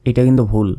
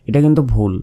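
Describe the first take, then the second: Both takes have the same delivery.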